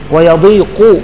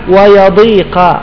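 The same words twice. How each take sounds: First: The qaf is followed by a u vowel. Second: The qaf is followed by an a vowel. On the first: "بضم القاف" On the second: "وفي قراءة صحيحة"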